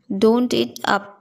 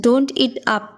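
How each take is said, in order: First: Slowly, every word laid out; teacher's slow model repeat; slow careful repeat. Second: Said in the usual way. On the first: Shown as a demonstration. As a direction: drag it out for the learner. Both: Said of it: "teacher repeats phrase for learners".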